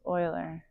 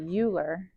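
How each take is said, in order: First: The name is not read the way it is spelled. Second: The name is read the way it is spelled. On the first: The speaker calls it right. "the correct pronunciation is Euler" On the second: The speaker calls it wrong. "I like to pronounce it Euler because that's how it looks to me"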